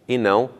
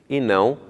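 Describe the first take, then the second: Both takes have the same delivery.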